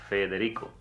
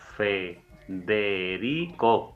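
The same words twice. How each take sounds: First: The word is said at a normal pace. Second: The word is said more slowly.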